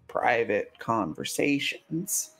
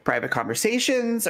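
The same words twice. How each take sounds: First: It is said in a suggestive, insinuating tone. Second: It is said in a plain, neutral tone. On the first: They want to do something intimate together. "they're going to do adult fun things" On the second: They just want to talk privately.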